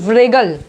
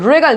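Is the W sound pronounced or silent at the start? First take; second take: pronounced; silent. First: The word starts with a W sound. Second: The word starts without a W sound. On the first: The speaker calls it wrong. "ना कि व्रेगल" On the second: The speaker calls it right. "रेगल ना कि व्रेगल"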